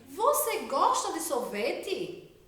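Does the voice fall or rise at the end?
rise. It is said as a question, rising.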